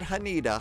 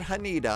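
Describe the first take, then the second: First: The middle vowel sounds like 'ih'. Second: The same.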